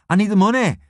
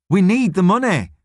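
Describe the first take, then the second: First: "money" most prominent, pitched high; insist, leaning on "money"; insistent. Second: "need" punched high and louder; stress on NEED. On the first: Ellie arguing with her friend about work, insistent on "money". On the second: Ellie pressing her friend about work, stressing "need". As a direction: insist harder, hitting "need". Ellie corrects herself with more force. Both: Acted.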